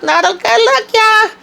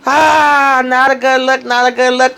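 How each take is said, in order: First: Very high, squealed sing-song teasing; squealed tease. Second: High sing-song teasing, a touch of mock pity; tsk-tsk tease. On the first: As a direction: squeal it out as the punchline. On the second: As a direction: shake your head at her, singing it. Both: Real, not acted. Gossipy reaction to Fatima's arrest.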